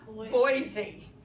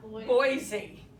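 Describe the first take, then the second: First: The middle consonant is a z sound. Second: The same.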